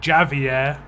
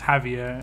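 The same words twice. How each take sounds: First: The name is said with an English pronunciation. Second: The name is said with a Spanish pronunciation. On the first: "Javier would be the name in English" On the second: "where it's Javier in, or Javi in Spanish"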